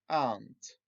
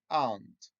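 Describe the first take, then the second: The two takes are said the same way.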